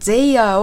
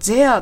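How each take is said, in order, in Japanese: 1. 2音節で発音します。they-ah のように。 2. 1音節で発音します。there のように。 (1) "ゼイヤーをゼアと発音して" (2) "ゼアと発音して"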